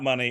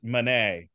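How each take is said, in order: First: The name is said like the word money. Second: The name is said like the painter Monet. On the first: The speaker calls it wrong. "It's not money" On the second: The speaker calls it right. "It's Monet"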